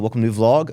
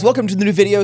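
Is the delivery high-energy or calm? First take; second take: calm; high-energy. First: It is said quietly with low energy. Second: It is said loudly with high energy.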